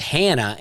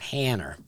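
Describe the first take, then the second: First: The name ends in an open 'ah' sound. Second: The name ends in an 'er' sound. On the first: "my wife's name's Hannah" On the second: "would call her Hanner"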